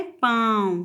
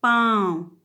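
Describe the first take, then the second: First: पाँव again, nasal आ; nasal vowel demo. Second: पाँव with a nasalised आ; nasal vowel demo. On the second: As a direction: say पाँव through nose and mouth. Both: Shown as a demonstration. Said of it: "नाक दोनों से इसका उच्चारण हुआ है".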